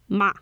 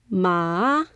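First: The pitch falls from high to low. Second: The pitch dips down and then rises. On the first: It is a word to scold someone. "This goes down" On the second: It means horse. "So it goes up, then down, then up"

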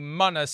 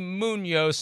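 First: The middle consonant is a plain n sound. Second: The middle consonant is an ny sound. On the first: The speaker calls it wrong. "not Anthony Munoz" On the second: The speaker calls it right. "It's Anthony Munoz"

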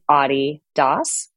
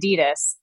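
First: It is pronounced the European way. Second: It is pronounced the Southern Californian way. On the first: The name comes from the founder's nickname. "So it's Adi Das when you're in Europe" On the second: The brand was learned through American music. "when you're from Southern California like me ... And so I say Adidas"

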